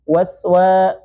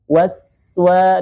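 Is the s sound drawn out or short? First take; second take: short; drawn out. First: The s sound is short and clipped. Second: The s sound is drawn out and flowing. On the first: The speaker calls it wrong. "jangan waswa" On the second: The speaker calls it right. "tapi waswa dialirkan terlebih dahulu"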